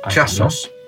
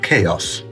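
First: The word begins with a 'ch' sound. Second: The word begins with a 'k' sound.

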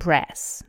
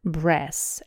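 First: It has an American short 'a' vowel. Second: The same.

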